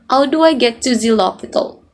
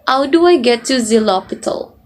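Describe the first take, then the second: First: The H sounds are dropped, French-style. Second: The H sounds are dropped, French-style.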